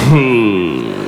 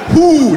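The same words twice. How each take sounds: First: It slides out lazily with slack lips. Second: It is said crisply with tight lips.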